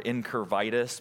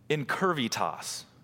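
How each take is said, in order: First: The last syllable sounds like 'tis'. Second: The last syllable sounds like 'tas'. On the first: "I'm just going to prefer to call it incurvitis because it sounds like a disease" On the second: "there's a Latin word that people used to use, and it is incurvitas"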